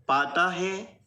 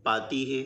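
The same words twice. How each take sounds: First: पाता है with a drawn-out final आ; long aa ending. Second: पाती है with a clear final ई; long ee ending. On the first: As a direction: stress the आ in पाता. (पाता में आ की मात्रा साफ़ बोलें) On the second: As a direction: stress the ई in पाती. (पाती में ई की मात्रा साफ़ बोलें) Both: Shown as a demonstration. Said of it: "देखिए दोनों में अंतर है".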